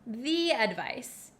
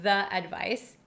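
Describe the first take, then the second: First: 'The' is said with a long 'ee' vowel. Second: 'The' is said with a short 'uh' vowel. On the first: "in front of a vowel" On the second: "Some people in America do say the advice. That's okay too"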